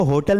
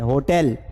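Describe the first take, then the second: First: "होटल" said ho-tal, with a dull schwa in the last syllable; demonstrating the wrong way to say "होटल"; wrong pronunciation. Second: "होटल" said ho-tel, with a clear e in the last syllable; demonstrating the right way to say "होटल"; correct pronunciation. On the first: Teacher shows students the mistaken reading of "होटल", ho-tal. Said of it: "इसको होटल नहीं पढ़ते". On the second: Teacher models the correct reading of "होटल" for students, ho-tel. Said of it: "इसको होटल पढ़ते हैं". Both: Shown as a demonstration.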